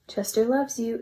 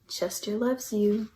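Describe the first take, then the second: First: Said in the usual way. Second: Slow and tender. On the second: Acted. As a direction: let it linger, gently and slowly. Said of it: "it sang".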